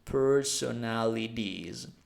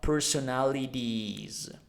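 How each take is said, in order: Both takes have the same delivery.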